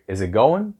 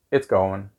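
First: "Is it going" lifted on "going" at the end; question tune. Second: "It's going" with "going" dropping low; falling answer tune. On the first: Someone asks you in English, "going" rising as a question. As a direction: ask "Is it going", ending upward on "going". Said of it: "somebody in English would ask you". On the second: You answer the question in English, "going" falling as a statement. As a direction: let "going" go down, no lift at the end. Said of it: "Same, you go down". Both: Shown as a demonstration.

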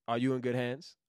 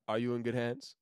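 The two takes are said the same way.

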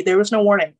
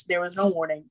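First: "there was no warning" louder, falling on "warning"; stress on warning. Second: Said in the usual way. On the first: Real, not acted. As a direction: punch "warning" loudly.

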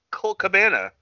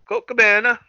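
First: Said in the usual way. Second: Higher, louder mock announcer call; ring announcer call. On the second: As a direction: belt the name out like a ring announcer. Calling out entrant like announcer.

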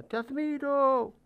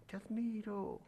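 First: High, slow call across the valley. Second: Much softer, distant echo; faint echo. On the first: Father calls across the mountain, slow ringing call. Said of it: "el padre grita a través de la montaña". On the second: The mountain answers the father, faint echo. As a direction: let it drift back from afar. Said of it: "del otro lado le contestan". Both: A narrator's reading.

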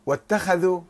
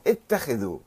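First: واتخذوا said wattakhadhu; واتخذوا with an a after the kh; past-tense vowels. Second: اتخذوا said ittakhidhu; اتخذوا with an i after the kh; imperative vowels. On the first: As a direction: say واتخذوا with "kha". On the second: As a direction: say اتخذوا with "khi". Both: Shown as a demonstration. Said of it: "أو اتخذوا أمر".

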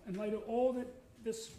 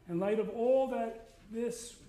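First: Said in the usual way. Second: Slow, louder, leaning on all; preacher punching all slowly; slow emphatic phrase. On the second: Real, not acted. Preacher stresses all to his congregation, slow and louder. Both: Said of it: "repeats the phrase".

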